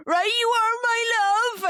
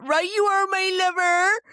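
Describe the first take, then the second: First: Put-on loud, high Cornish accent. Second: Put-on high Hot Fuzz Cornish accent. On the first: Dropping the son at school: loud, high Cornish accent. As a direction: call it out in Cornish to embarrass. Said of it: "And I do a Cornish accent". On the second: Quoting Hot Fuzz to the podcast host: high Cornish accent. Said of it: "And that's one of them".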